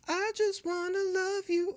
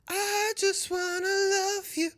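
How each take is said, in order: First: The voice is plain, without extra air. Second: The voice is airy, with extra breath. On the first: "rather than saying" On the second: "with that extra in the voice"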